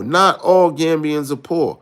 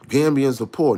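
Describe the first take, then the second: First: Slow, with all leaned on hard; slow down and punch all; stress on all. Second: Said in the usual way. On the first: Shown as a demonstration. Correcting listeners who call Gambians poor, slow with all stressed. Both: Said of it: "why y'all keep on saying".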